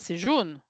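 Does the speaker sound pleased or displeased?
displeased. It is said in a displeased, disapproving tone. The yellow color is not great. "c'est pas terrible que ce soit jaune"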